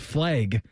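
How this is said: The vowel sounds like the e in 'leg'. This imitates a regional way of talking. The speaker calls it wrong. "the way that they said flag was flag"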